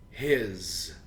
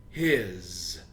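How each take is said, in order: First: One syllable ending in a z sound. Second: One syllable ending in a z sound.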